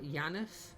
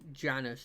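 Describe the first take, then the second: First: The name begins with a Y sound. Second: The name begins with a J sound. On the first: "I think J's were used as Y's" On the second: "I could see Janus just being the thing"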